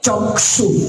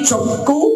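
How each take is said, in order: First: It is said with Sanskrit sound values. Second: It is said with Bengali sound values. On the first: "সংস্কৃত ব্যাকরণে মন্ত্রটা যখন উচ্চারিত হবে" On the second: "Bangla ব্যাকরণে"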